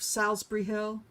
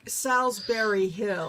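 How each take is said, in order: First: Salisbury is said short, with syllables dropped. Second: Salisbury is said with every syllable pronounced fully. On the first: This is how the British say it. The speaker calls it right. "you Brits just drop every other syllable" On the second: This is how Americans say it. The speaker calls it wrong. "the worst thing we do"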